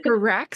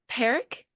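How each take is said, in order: First: Parak with stress on the second syllable; drawn-out puh-RACK for Parak; fancy pronunciation. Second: Parak as American PAIR-ick, rising; without the British accent. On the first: Repeats the fancy version of name. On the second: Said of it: "I said it without the British accent". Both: Shown as a demonstration.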